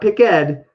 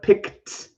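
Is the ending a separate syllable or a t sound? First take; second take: separate syllable; t sound. First: The ending is said as a separate syllable. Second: The ending is a short t sound. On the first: The speaker calls it wrong. "not pick ed" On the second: The speaker calls it right. "with a T pronunciation"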